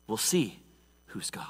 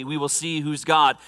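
First: Hushed whisper. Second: Said in the usual way. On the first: Shown as a demonstration. Preacher building suspense before the showdown, whisper. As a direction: whisper "who's God" barely audible.

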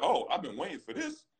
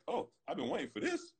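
First: Pitched higher, relishing the challenge; eager to fight. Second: Higher, gleeful, a bit softer; eager to fight. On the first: Player answering a rival's dare, eager and pitched up. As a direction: savour the moment the fight comes. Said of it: "Yo, you wanna dance?". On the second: Player retelling his answer to a rival, softer and gleeful. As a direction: quietly relish the dare. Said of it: "he opens his hands to me". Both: Retold or imitated.

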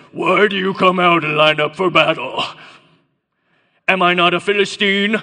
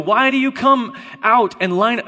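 First: Loud giant's challenge in a put-on accent; Goliath's accented bellow. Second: Loud, higher-pitched call; shouted challenge. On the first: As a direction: boom it out like an enemy champion. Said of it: "it was more like this". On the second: Acted. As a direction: call it out to a whole army. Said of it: "shouted to the ranks of Israel".

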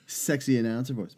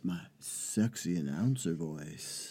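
First: Said in the usual way. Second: Low, slow, soft sultry announcer; sexy announcer voice. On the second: Shown as a demonstration. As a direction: drop into a smooth seductive announcer. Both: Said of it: "That's my sexy announcer voice".

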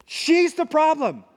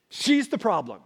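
First: Higher, slower, finger-pointing accusation; accusing. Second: Said in the usual way. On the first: Retold or imitated. Adam blaming the woman, higher and slow. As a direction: pin it all on her. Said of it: "Adam has changed his tune". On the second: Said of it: "It's very emphatic".

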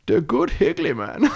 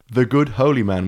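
First: Put-on high, slow, silly Dutch accent; cartoon Dutch, pitched up; mock Dutch. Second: Said in the usual way. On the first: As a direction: put on an exaggerated Dutch voice on the edge of laughter. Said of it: "say it like Goldmember".

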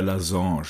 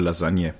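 First: LASAGNE said French-style as "la-zonsh"; mock-French pronunciation. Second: Said in the usual way. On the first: Choosing dinner with friends, Lasagne in mock-French pronunciation. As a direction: end Lasagne on a nasal French "onsh", no "-nye".

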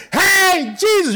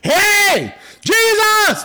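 First: High, loud repeated call; shouted call to Jesus, a bit lighter. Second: High, loud shout of Jesus' name; calling out loud. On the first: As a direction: cry out his name again. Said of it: "That's what he said". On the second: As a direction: call him out across the crowd. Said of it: "He let everyone know". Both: Retold or imitated.

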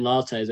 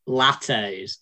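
First: Said in the usual way. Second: "lattes" with a short, flat first A, LAT-ayz; northern-style "lattes", short A as in cat. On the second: Shown as a demonstration. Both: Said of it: "as I should probably say".

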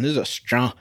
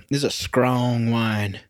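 First: Said in the usual way. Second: "strong" said as "scrong", drawn out; slow down and say "strong" with a skr sound; Jameis Winston impression. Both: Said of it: "as Jameis Winston would say".

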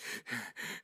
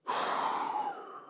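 First: Soft acted puff of breath; catching breath. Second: Long, drawn-out exhale; disguised breathlessness. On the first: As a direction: puff as if winded from the stairs. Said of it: "trying to catch my breath". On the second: Acted. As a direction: let out a long breath, passing it off as natural. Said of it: "trying to keep it natural".

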